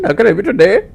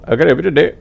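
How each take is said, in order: First: Higher, louder call-centre greeting; put-on tech support voice. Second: Louder echo of the helpdesk greeting; imitated telemarketer. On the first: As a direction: chirp the standard helpdesk line. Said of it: "I actually wanna do voices". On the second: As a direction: mimic the other agent's script back. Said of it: "You know".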